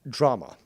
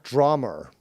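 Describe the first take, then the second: First: The word ends in a plain vowel, no R. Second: The word ends with an added R sound. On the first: The speaker calls it right. "There is no R at the end of drama" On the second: The speaker calls it wrong. "not drummer"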